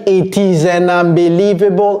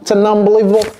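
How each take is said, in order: First: The first words are said fully and separately. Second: The first words run together into one quick sound. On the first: The speaker calls it wrong. "Elle n'a pas dit it is an unbelievable" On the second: The speaker calls it right. "Non, it's an unbelievable"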